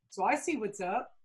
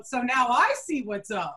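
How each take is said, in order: First: Quietly imply you're in on it; knowing insinuation. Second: Slow, drawn-out knowing comeback; teasing throwback. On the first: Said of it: "taps me on the leg and he goes". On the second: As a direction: throw the phrase back with relish. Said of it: "that's what I said back to him". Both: Retold or imitated.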